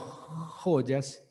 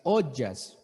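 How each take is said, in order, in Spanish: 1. La palabra empieza con un sonido h aspirado. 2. La palabra empieza de forma simple, sin sonido h.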